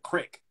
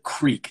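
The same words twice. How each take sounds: First: The vowel is short, like in stick. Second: The vowel is long, like in seek. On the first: "they pronounced it like crick, like cricket" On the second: "That's that's how I said it growing up"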